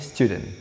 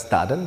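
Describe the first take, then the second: First: The first syllable does not sound like 'study'. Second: The first syllable sounds like 'study'. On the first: The speaker calls it right. "yang benar ini membacanya student" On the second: The speaker calls it wrong. "Karena merujuk pada kata kerjanya itu study"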